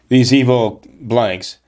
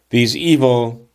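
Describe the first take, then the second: First: Slowed, careful substitute for a swear word; coyly censoring the quote as it is read; wary self-censoring. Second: Said in the usual way. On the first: Shown as a demonstration. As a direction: swap in "blanks" for the curse, hesitantly. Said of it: "Can I say that here, question mark". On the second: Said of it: "Can I say that here".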